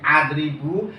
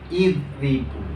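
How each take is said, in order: First: The word begins with an 'a' vowel. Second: The word begins with an 'i' vowel. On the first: The speaker calls it wrong. "Diharokati fathah berbunyi adribu" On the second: The speaker calls it right. "dibaca kasrah berbunyi idribu"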